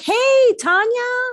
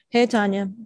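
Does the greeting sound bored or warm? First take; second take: warm; bored. First: The greeting sounds bright and glad. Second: The greeting sounds flat and uninterested. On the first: The speaker is excited to see the person. The speaker calls it right. "It's like, hey, Tanya, how are you?" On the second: The speaker just wants to get through this. The speaker calls it wrong. "it's not just, hey, Tanya, hi, blah, blah"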